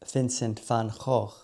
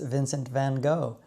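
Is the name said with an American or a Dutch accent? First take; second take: Dutch; American. First: The name is said with a Dutch accent. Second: The name is said with an American accent. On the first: The speaker calls it right. "It should be said more like" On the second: The speaker calls it wrong. "my persistent American accent when pronouncing his name"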